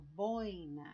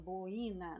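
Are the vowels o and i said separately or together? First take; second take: together; separately. First: The o and i glide together in one syllable. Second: The o and i are split into two syllables. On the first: The speaker calls it right. "o O eu falei juntinho com o I" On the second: The speaker calls it wrong. "eu falo boina, não"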